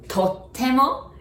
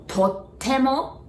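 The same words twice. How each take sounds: The two takes are said the same way.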